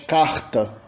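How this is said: It is said in a Rio/Northeast accent. "no Rio de Janeiro e no Nordeste"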